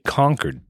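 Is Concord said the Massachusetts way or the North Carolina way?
Massachusetts. It is said the Massachusetts way. "We say Concord"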